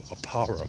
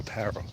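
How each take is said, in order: First: "Aparo" as uh-PAH-ro; "Aparo" with a broad ah, stressed PAH. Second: "Aparo" as uh-PARE-o; "Aparo" with a flat A, stressed PARE. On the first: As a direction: open the middle of "Aparo" to PAH. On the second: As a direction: middle of "Aparo" rhymes with pair. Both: Shown as a demonstration. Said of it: "Where do you put the emphasis?".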